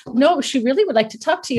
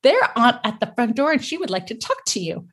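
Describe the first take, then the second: First: Quicker, higher, with weight on "really"; lightly voiced insistence, leaning on "really"; insistent child. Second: Said in the usual way. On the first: Daughter insists to doubting mom, stressing "really".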